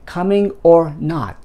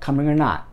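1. 'or'ははっきり別々に発音します。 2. 'or'は弱く短くなり、'coming'とつなげて発音します。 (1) "じゃなくて" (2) "で発音します。ここer をくっつけちゃって"

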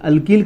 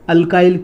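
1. दूसरे अक्षर में छोटा 'ih' वाला स्वर है। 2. दूसरे अक्षर में 'eye' वाला स्वर है।

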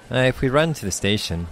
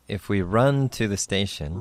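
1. このフレーズは自然な速さ、速いテンポで言われています。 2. このフレーズはゆっくり、丁寧に言われています。

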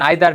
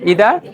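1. এটি 'eye' ধ্বনি দিয়ে শুরু হয়। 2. এটি 'ee' ধ্বনি দিয়ে শুরু হয়। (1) "আমরা কি বলতাম আইদার" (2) "উচ্চারণ কি ইদা"

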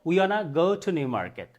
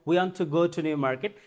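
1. 'Want to' মিশে গিয়ে 'wanna' হয়ে যায়। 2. 'Want to' দুটি আলাদা শব্দ হিসেবে উচ্চারিত হয়।

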